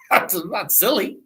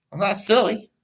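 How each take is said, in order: First: Laughing through it; giggling while protesting. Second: Said in the usual way. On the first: Real, not acted. Host laughing at his own stalling trick. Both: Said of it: "see how I stalled on that?".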